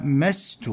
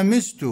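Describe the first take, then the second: First: مست said as mast, keeping the fatha on the mim; without moving the vowel. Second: مست said as mist, with i on the mim; with the kasra moved. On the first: Teacher showing the form without the move, mast. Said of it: "بدون نقل الكسرة". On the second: Teacher showing the moved-vowel form, mist. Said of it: "بنقل الكسرة إلى الميم بعد سلب حركة الميم". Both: Shown as a demonstration.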